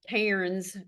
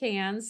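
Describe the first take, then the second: First: The vowel sounds like 'air', as spelled. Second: The vowel sounds like 'an', as in 'cans'. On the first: This is how the spelling suggests it is said. "it looks like Cairns for you Americans" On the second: This is how the locals say it. "They do pronounce it Cans"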